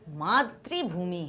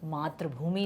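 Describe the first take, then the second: First: The middle syllable ends in an 'ri' sound. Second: The middle syllable ends in an 'a' sound. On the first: The land is a mother. The speaker calls it right. "वो मातृभूमि है" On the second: It is merely land. The speaker calls it wrong. "मातृभूमि नहीं"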